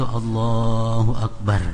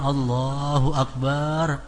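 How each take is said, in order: First: The vowel after b in Akbar is short. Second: The vowel after b in Akbar is lengthened. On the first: It means most great. The speaker calls it right. "jadi jangan panjang ba-nya itu" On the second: It would mean a drum. The speaker calls it wrong. "kalau kita panjang Allahu Akbar"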